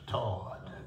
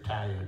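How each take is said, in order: First: The word is said in a distinctive, imitated way. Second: The word is said the ordinary, everyday way. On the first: This is how a remembered elder said it. "she said tired" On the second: This is the usual way of saying it. "She wouldn't say tired"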